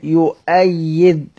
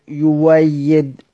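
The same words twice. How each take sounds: First: يؤيد with a clear glottal stop, slow; with hamza. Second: يويد with the hamza turned into a w sound, slow; hamza as waw. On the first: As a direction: say يؤيد drawn out, hamza sounded. (يؤيد بالهمز ببطء) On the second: (يويد بإبدال الهمزة واوًا ببطء) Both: Shown as a demonstration. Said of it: "يقف على سيدنا حمزة إزاي؟".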